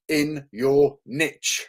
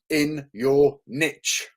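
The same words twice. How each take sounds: First: It is said in an American accent. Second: It is said in an American accent.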